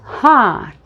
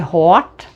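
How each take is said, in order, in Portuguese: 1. A vogal é mais aberta e mais atrás. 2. A vogal é menos aberta e mais à frente. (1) "você vai dizer hot. Abre um pouquinho mais a boca" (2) "Ao invés de hot"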